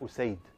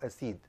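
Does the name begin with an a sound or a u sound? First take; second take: u sound; a sound. First: The name begins with a u vowel. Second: The name begins with an a vowel.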